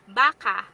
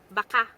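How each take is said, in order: First: It is pronounced the way 'cow' is said. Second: It is pronounced the way 'maybe' is said. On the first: It means cow. "cow is baka in Tagalog" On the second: It means maybe. "some pronounce maybe as baka"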